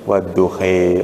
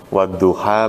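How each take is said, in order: First: The final vowel is bent toward 'e'. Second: The word ends with an open 'a' vowel.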